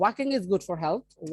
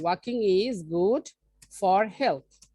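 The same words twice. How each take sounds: First: Said in the usual way. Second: "walking is good", pause, "for health"; slow dictation. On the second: Shown as a demonstration. Teacher repeating an example for learners to follow, slow and in pieces. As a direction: read it out slowly, breaking before "for health".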